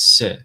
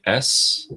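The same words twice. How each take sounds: First: "se" as s followed by a short vowel; louder demo of "se", vowel after the consonant; Farsi letter name. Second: Said in the usual way. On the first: Shown as a demonstration. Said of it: "In Farsi". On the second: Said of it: "in English".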